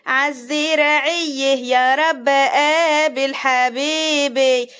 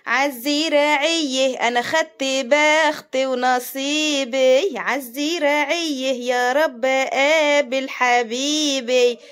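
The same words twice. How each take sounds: First: Slow drawn-out village singing; slow mock love song sung in Arabic style; sung folk line. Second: Slow drawn-out singing of the whole verse; slow croon of a village love song; sung folk line. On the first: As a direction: croon it slowly like a folk tune. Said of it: "وبتغني". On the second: Retold or imitated. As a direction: sing it slowly to the end. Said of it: "هكملك".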